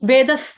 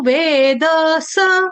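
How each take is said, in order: First: The d has no vowel and the s is final. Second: The d and the s each carry a full vowel. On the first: The speaker calls it wrong. "गलती से वेदस नहीं पढ़ेंगे" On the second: The speaker calls it right. "द पूर्ण, स सपूर्ण"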